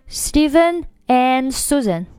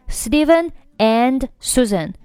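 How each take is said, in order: First: 'And' is as strong as the two names. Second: 'And' is as strong as the two names.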